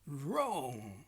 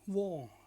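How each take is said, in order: First: The word starts with a growled R. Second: The word starts with a W sound. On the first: The speaker calls it right. "like to make dogs growling sounds" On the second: The speaker calls it wrong. "not wrong, like Mister Wong"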